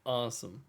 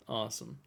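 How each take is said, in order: Both takes have the same delivery.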